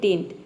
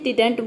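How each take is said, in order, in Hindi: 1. बीच का d sound छोड़ दिया जाता है। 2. बीच का d साउंड साफ़ बोला जाता है। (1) "कोई बोलता है डिंट" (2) "कोई इसे डिडंट बोलता है"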